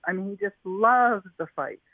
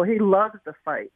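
First: Loves leaned on, falling at the end; stress on loves. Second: Said in the usual way. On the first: Real, not acted. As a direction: push the word loves home.

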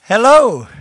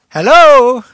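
First: Loud hello with a falling tune; loud greeting. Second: Very loud, high-pitched hello; big hello thrown to the whole crowd; booming greeting. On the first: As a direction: greet the crowd loudly. Greeting the audience from stage. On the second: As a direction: call out for a bigger response. Repeats greeting louder to audience. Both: Real, not acted.

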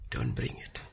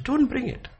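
First: Don't bring it breathed unvoiced and soft; whispered echo. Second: High, hard Don't bring it; emphatic command. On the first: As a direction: drop to a hush. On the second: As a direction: snap it out high. Emphatic repeat contrast. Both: Real, not acted.

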